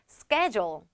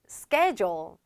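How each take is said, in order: First: It is said with an American accent. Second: The same.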